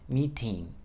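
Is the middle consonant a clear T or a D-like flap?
clear T. The middle consonant is a crisp, clear T. This is the British way of saying it. "Or the British say, we have a meeting"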